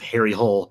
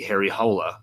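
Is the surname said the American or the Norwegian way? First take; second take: American; Norwegian. First: The surname is said as one short syllable. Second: The surname ends with an added lilting syllable. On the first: The speaker calls it wrong. "they just Americanize it" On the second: The speaker calls it right. "the correct pronunciation of the of the name would put a lilt at the end of the surname"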